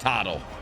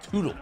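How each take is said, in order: First: The first vowel is a short 'uh' sound. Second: The first vowel is a long 'oo' sound. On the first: The speaker calls it right. "we're calling him Tuttle" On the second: The speaker calls it wrong. "like Toodaloo"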